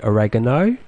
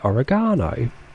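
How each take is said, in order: First: It is said with an American pronunciation. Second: It is said with a British pronunciation. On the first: "You say oregano" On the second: "I say oregano"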